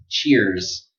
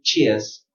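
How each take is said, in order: First: The r sound is pronounced before the z. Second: A British accent with no r sound.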